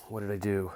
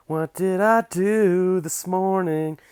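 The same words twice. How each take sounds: First: Said in the usual way. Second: Much higher, louder and slow, stretched out; dramatic exaggerated question. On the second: Shown as a demonstration. To viewers, mock-theatrical drawn-out question. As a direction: drag it out in a big theatrical sing-song.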